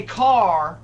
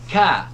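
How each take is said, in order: First: "car" drawn out slowly with a full R on the end; slow, emphatic Southern "car", R fully sounded; pronounced R. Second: "Car" without its R, ending on an open "ah"; louder, higher "Car" with the R left off; dropped R. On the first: Shown as a demonstration. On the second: Retold or imitated. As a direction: say "Car" New England style, as "cah". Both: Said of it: "but I pronounce my R's".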